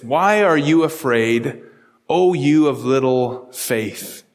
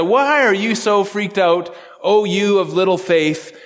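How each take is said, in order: First: Slow, lower, measured rebuke as Jesus; a calm teacher gently asking his frightened friends; gentle rebuke. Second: Said in the usual way. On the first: Retold or imitated. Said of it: "And he said to them". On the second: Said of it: "He just looks at them and says".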